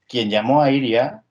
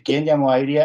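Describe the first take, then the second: First: The word quien is said without stress. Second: The word quien carries clear stress. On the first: It refers to an individual person. The speaker calls it wrong. "si lo digo sin acento" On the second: It asks about an event or state of affairs. The speaker calls it right. "¿quién llamó a Iria con acento?"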